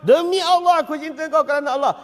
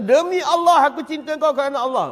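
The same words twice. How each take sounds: First: Louder and higher, declared with feeling; raised, fervent oath. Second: Said in the usual way. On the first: Shown as a demonstration. Preacher repeats the oath louder to the crowd. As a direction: swear it with full conviction. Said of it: "Apa kata kau". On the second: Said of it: "Bila sahabat kata".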